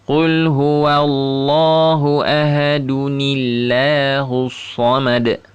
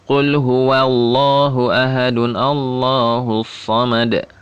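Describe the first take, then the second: First: The 'a' of Allah is dropped, linked as 'nillahus'. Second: The 'a' of Allah is kept, not linked. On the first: The speaker calls it right. "seharusnya atau seyogyanya dibaca seperti ini" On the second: The speaker calls it wrong. "dia akan bacanya kemungkinan besar kayak begini"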